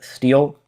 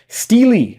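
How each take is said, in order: First: The word is said as one syllable. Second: The word is said as two syllables. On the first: "Is that how you pronounce it?" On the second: "Wait, really? I did not know that"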